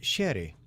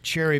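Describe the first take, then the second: First: The word starts with a sh sound. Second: The word starts with a ch sound.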